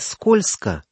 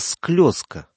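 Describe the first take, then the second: First: The word is said as standard 'skolzko'. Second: The word is said as dialect 'sklyozko'. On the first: This is the standard form that was not used. "он сказал не скользко" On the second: This form marks the speaker as from northern Novgorod. "а склёзко"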